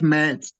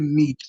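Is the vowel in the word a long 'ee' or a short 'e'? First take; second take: short e; long ee. First: The vowel is a short 'e' sound. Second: The vowel is a long 'ee' sound. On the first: The speaker calls it wrong. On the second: The speaker calls it right. "you convert double E to pronounce as I"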